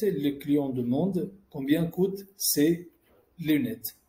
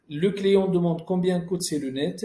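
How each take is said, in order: First: Said in the usual way. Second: "combien coûtent ces lunettes" asked as a question, rising at the end; questioning tune on "combien coûtent ces lunettes"; question intonation. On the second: Shown as a demonstration. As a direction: lift "lunettes" as if a question mark follows. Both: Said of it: "On a juste enlevé la ponctuation".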